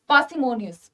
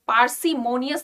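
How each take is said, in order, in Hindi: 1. r की ध्वनि मौन रहती है। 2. r की ध्वनि स्पष्ट रूप से उच्चारित होती है। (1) "आर is silent here" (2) "पार्सिमोनियस नहीं बोलेंगे"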